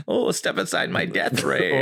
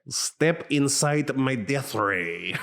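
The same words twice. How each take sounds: First: Slow, drawn-out mad scientist accent; cartoon crazy German scientist. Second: Slow, failed German accent, barely there; a weak cartoon mad scientist try. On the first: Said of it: "I like to read it in, like, cartoon, crazy German scientist voice". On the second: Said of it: "That's not German at all". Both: Shown as a demonstration.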